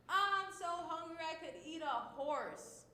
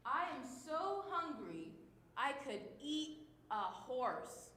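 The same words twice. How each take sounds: First: I'm so hungry pitched high and loud, overplayed; super dramatic. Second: Dramatic. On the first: Teacher acting out a hyperbole, hammed-up dramatic. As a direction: ham up the hunger like a starving kid. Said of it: "That's a dramatic statement". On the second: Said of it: "when you're being super dramatic". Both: Shown as a demonstration.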